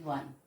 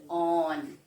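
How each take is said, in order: First: The word begins with a w sound. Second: The word begins with a short o vowel. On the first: The speaker calls it right. "We say one" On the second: The speaker calls it wrong. "We never say on"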